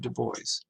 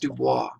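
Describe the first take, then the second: First: The name is pronounced the English way. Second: The name is pronounced the French way. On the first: The speaker calls it right. "He actually insisted upon the pronunciation of Du Bois" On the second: The speaker calls it wrong. "his name is not pronounced Dubois ... if you know any bit of French, you would think it's pronounced Dubois"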